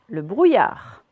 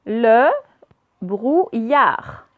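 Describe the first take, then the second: First: Said in the usual way. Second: "Le brouillard" broken into Le, brou, illard; syllable by syllable. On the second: Shown as a demonstration. Teacher reading words aloud to pupils, syllable by syllable. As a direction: sound out "Le brouillard" with clear gaps. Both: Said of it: "on va faire les deux d'un coup".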